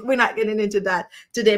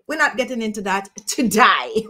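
First: Said in the usual way. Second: "today" said as "to-die"; altered vowel. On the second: Pretend. Dropping the accent topic with viewers, "today" pronounced "to-die". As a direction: rhyme the end of "today" with "die".

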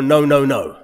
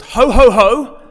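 First: Lower, grumbling no no no. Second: Bright, laughing ho ho ho; a jolly Santa-like ho ho ho. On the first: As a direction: drop the voice for a disapproving no no no. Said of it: "or No No No". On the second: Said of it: "a game called Ho Ho Ho". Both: Shown as a demonstration.

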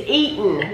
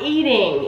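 First: "Eatin'" ending in a plain n; EATIN' with dropped g. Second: "eating" ending in ng, no dropped g; EATING with full -ing. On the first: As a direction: say "Eatin'" without the final g. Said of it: "I'm not pronouncing that wrong". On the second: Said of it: "not eating". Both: Shown as a demonstration.

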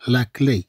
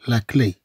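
Both takes have the same delivery.

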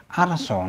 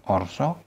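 First: "arso" said "ar-saw", opening on ah; "arso" with ah before the r. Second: "orso" said "or-saw", opening on rounded o; "orso" with o before the r; wrong O vowel. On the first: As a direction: open the first vowel of "arso" to "ah". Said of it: "A followed by R is always pronounced". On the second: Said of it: "not orso". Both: Shown as a demonstration.

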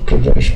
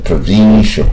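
First: Said in the usual way. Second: "provincial" with a long, raised "VEE" in the middle; mispronounced provincial. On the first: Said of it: "这个provincial". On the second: Shown as a demonstration. Teacher showing students what to avoid, "provincial" with stretched ee. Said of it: "不要念成provincial".

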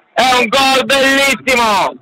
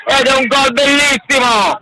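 First: Shouted goal call. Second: Excited goal call. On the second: Goal call, first take. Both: Real, not acted.

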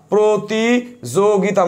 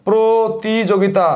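First: প্রতিযোগিতা stretched very slowly, every syllable held; even slower syllable demo. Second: প্রতিযোগিতা drawn out syllable by syllable; slow syllable demo. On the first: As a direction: draw প্রতিযোগিতা out as slowly as possible. (প্রতিযোগিতা আরও ধীরে টেনে টেনে উচ্চারণ) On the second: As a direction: spell out প্রতিযোগিতা slowly, each syllable clear. (প্রতিযোগিতা ধীরে ধীরে ভেঙে উচ্চারণ) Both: Shown as a demonstration. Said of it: "এই দেখো".

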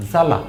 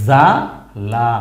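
First: Said in the usual way. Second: জালা stretched very slowly with a rise at the end; drawn-out reading. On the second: Shown as a demonstration. Teacher to learners, stretching জালা very slowly. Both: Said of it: "তাহলে আমরা প্রথম লাইনে কি পেয়েছি?".

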